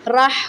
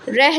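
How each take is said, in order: First: The vowel after 'r' sounds like 'a'. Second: The vowel after 'r' sounds like 'i'. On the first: The speaker calls it right. "ये राह होता है। राह ज़बर राह" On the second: The speaker calls it wrong. "रह नहीं होता"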